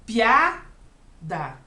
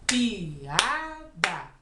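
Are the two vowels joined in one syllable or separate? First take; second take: joined; separate. First: The two vowels run together in one syllable. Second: The two vowels are said in separate syllables. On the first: The speaker calls it wrong. "Eu não falo piada" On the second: The speaker calls it right. "eu falo piada. ... Separado"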